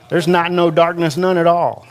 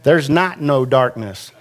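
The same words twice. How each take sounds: First: Higher, stress on "not" and "none"; emphatic restatement. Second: Said in the usual way. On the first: Shown as a demonstration. Preacher to congregation, raised emphatic restatement. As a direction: lift and press "not" and "none". Repeating the Greek negative.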